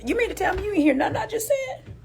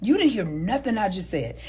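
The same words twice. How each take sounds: First: High, fast disbelieving question; incredulous. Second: Said in the usual way. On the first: Real, not acted. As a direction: ask it like you can't believe it. Incredulous voice to the woman.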